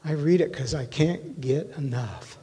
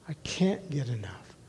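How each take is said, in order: First: Said in the usual way. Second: Soft echo. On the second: Real, not acted. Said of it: "I read it 'cause I can't get enough".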